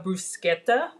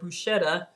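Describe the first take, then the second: First: The middle consonant is pronounced as 'sk'. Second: The middle consonant is pronounced as 'sh'. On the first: This is the Italian pronunciation. "which is the proper way of pronouncing it" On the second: This is the local, non-Italian pronunciation. "here we call it bruschetta"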